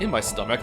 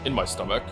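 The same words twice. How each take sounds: First: It sounds giddy and proud. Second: It sounds flat and unemotional.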